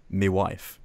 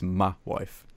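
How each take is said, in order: First: "me" said as "mee" in "me wife"; "me wife" with a full "mee" vowel; mispronounced Cockney. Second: "ma wife" with "ma" as a short "muh"; "ma wife", short open vowel in "ma"; Cockney pronunciation. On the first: Retold or imitated. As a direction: say "me wife" with a long ee in "me". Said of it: "'cause he says, uh". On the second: Shown as a demonstration. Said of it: "They don't say that".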